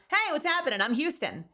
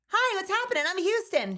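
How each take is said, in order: First: The voice is pitched lower. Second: The voice is pitched higher.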